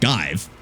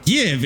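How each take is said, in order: First: The vowel is a long 'i' sound. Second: The vowel is a short 'i' sound. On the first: The speaker calls it wrong. "Technically, it should be pronounced Give by that rule, but it's not" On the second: The speaker calls it right. "Give is a short I"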